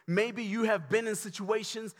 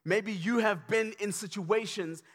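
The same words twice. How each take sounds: The two takes are said the same way.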